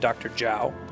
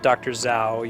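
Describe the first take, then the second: First: The surname begins with a j-like sound. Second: The surname begins with a z sound. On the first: The speaker calls it right. "Z H is usually like a J sound" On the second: The speaker calls it wrong. "you wouldn't pronounce that Doctor Zhao"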